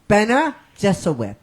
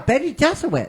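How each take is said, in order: First: The first word ends in an 'uh' sound. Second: The first word ends in an 'ee' sound. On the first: "Oh, Benna"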